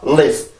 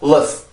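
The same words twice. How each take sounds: First: The vowel is a short 'ih' sound. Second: The vowel is a neutral schwa sound. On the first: "I 발음에선 입술이 살짝 더 열린단 말이에요" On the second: "슈아 발음을 할 때는 입술이 안 열리고"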